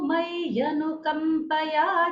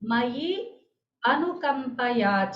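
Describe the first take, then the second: First: The two words run together as 'mayyanukampaya'. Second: The two words are said apart as 'mayi anukampaya'. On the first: "एक और बार।" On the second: "अब इसका पदविभाग देखते हैं।"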